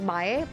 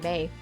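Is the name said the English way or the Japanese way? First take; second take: Japanese; English. First: The name is said with a Japanese pronunciation. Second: The name is said like the English word May. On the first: This is the name's usual, original form. "my last name is usually pronounced as Mae" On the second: This is a simplified form for easier use. "making it easy for you and just say May"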